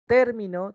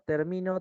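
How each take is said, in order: First: The stress is on the first syllable. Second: The stress is on the middle syllable. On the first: It names a term or element. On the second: I am about to finish.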